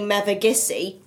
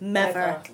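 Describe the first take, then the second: First: The name is said in full, all syllables. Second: The name is cut down to two syllables. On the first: This is how a non-local says it. The speaker calls it wrong. "a local would never say" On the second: This is how a local says it. The speaker calls it right. "We'd always say"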